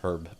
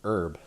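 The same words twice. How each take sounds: First: The word starts with a clear H sound. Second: The word starts without an H sound. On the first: "I'm not one of those herb people" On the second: "I don't pronounce the H"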